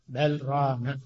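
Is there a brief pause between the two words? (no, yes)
yes. A brief pause separates the two words. The speaker calls it right. "كلا بل يتميز اللام عن الراء"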